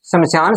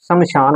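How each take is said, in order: First: शमशान with a plain s in the middle; incorrect pronunciation. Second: शमशान with a clear sh before the long aan; correct pronunciation. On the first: Teacher showing students a word form to avoid, incorrect pronunciation. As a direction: say शमशान with s, not sh, before the long aan. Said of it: "शमशान शब्द नहीं होता". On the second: Teacher giving students the proper word, correct pronunciation. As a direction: say शमशान with a hushing sh in the middle. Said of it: "शमशान होता है". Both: Shown as a demonstration.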